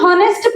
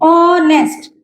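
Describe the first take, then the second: First: The word starts with an audible h sound. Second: The word starts with a vowel, no h. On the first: The speaker calls it wrong. "इसको हम हॉनेस्ट pronounce नहीं करते हैं" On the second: The speaker calls it right. "एच silent है यहाँ पे, तो इसको हम ऑनेस्ट बोलते हैं"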